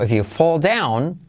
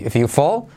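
First: Slow, weighted "fall down"; emphatic, drawn-out "if you fall down"; more emphatic. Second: Said in the usual way. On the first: Shown as a demonstration. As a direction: land firmly on "fall down". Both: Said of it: "más enfático".

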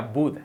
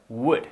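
First: "wood" mispronounced with a b, like "bood"; B-for-W error. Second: "wood" with a rounded open w, no b. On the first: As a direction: close the lips on "wood", making it "bood". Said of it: "No que sería wood". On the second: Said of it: "pero wood". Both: Shown as a demonstration.

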